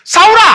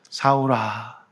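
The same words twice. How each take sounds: First: The name is shouted in an irritated voice. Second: The name is said in a kind, gentle voice. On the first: The caller is treating the listener as an enemy. The speaker calls it wrong. "이렇게 했을까요?" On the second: The caller is offering forgiveness to a close friend. The speaker calls it right. "인자한 목소리였어요"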